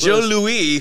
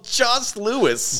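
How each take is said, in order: First: No S sound is pronounced after 'Jo'. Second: An S sound is pronounced after 'Jo'. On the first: The name is said the way Canadians say it. "Joe Louis for the Canadians watching" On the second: The name is read as spelled. "a very popular board game called Joss Lewis"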